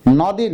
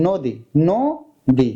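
First: "নদী" as "naw-di", open অ; wrong open vowel. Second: "নদী" as "no-di", then split slowly "no... di"; closed o. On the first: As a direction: stress an unrounded first vowel in "নদী". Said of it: "নদী না". (খোলা অ দিয়ে "নদী") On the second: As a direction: round the vowel and separate syllables of "নদী". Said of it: "অর্থাৎ সংবৃত করতে হবে". (সংবৃত ও দিয়ে ধীরে "নদী") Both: Shown as a demonstration.

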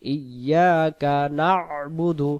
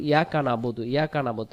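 First: ইয়াকা না'বুদু slow as "iyyaaka na'budu"; correct recitation. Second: ইয়াকা না'বুদু run off as "yaka nabudu"; mistaken pronunciation. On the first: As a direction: chant ইয়াকা না'বুদু with doubled y and throaty ayn. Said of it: "তাহলে আমরা কি বলবো". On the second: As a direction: say ইয়াকা না'বুদু fast, short vowels, no ayn. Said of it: "উচ্চারণটা কি ভুল হয়ে যাচ্ছে". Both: Shown as a demonstration.

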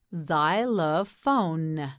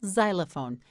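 First: Xylophone slowly split into zy-lo-phone; syllable by syllable. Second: Said in the usual way. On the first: Shown as a demonstration. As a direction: stretch out each syllable of Xylophone. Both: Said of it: "You try it, say xylophone".

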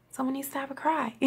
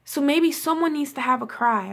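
First: Quieter and a bit quicker, almost to herself; soft repeat. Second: Said in the usual way. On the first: Real, not acted. Vlogger gently repeating advice to her viewers, softly. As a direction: let the repeat drop to a soft murmur.

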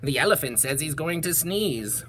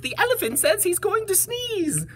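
First: Understated warning at an everyday pitch; bee's warning. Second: High-pitched bird warning; calling bird. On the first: Bees warn the bear of a sneeze, understated warning. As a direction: pass the warning on lightly, as a bee. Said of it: "called the bees to the bear". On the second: Birds warn the bees of a sneeze, high calling voice. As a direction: pass on the alarm in a high bird voice. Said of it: "called the birds to the bees". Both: Acted.

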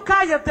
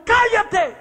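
First: Loud, raised cállate again; retelling the shout that silenced the witch doctor; repeated shout. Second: Sharp high shout of cállate; a preacher rebuking a witch doctor with a shout; shouted command. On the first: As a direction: command him to be silent. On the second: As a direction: bark it out to silence him. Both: Retold or imitated. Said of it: "Y cuando le grito".

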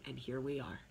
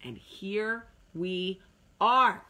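First: Said in the usual way. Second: Slow and louder. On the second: Shown as a demonstration. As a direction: stretch out "And here we are" slowly and louder.

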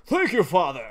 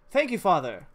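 First: A thank you that slips into a laugh; thanks with an accidental chuckle. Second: Said in the usual way. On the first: Acted. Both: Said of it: "I didn't mean to say it like that".

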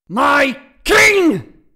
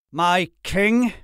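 First: Huge high roar of outrage; full-force enraged shout; thundering. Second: Raised, incredulous question; high, indignant disbelief; disbelieving. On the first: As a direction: bellow it word by word. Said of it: "voice thundered off the high ceilings". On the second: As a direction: echo it as if you can't believe it. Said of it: "as if he could not believe". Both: A narrator's reading.

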